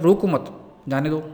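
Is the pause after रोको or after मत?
मत. There is a pause after मत.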